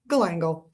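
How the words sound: It is said the American way, ending like 'gal'.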